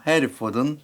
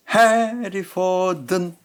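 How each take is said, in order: First: 해리포든 joined up in one short run; linked sounds. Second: 해리포든 raised, first syllable stretched; high, long accent. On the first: Teacher showing how sounds join, 해리포든 linked. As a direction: say 해리포든 connected, without stretching it. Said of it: "이렇게 붙이죠". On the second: Teacher showing accented syllables, long high stress on 해리포든. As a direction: draw out 해 in 해리포든, slowly and higher. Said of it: "조금 길고". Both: Shown as a demonstration.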